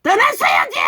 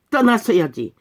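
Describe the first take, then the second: First: Very high, straining shout; exasperated shout. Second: Said in the usual way. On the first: Real, not acted. Preacher saying they should have left, exasperated shout. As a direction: cry out the rebuke at full pitch.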